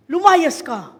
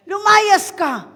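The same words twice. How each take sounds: First: Loud casting-out command; loud command to the demon. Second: Loud, slow, drawn-out casting-out; slow, loud command to the demon. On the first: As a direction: order it out firmly. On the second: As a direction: stretch each syllable to force it out. Repeated slower command. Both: Shown as a demonstration.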